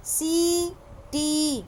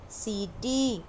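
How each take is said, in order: First: सीटी very slow, each ee held; teacher modelling सीटी; drawn-out syllables. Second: Said in the usual way. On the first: Shown as a demonstration. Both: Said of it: "अंतर देखिए दोनों में".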